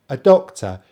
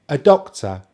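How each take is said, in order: The two takes are said the same way.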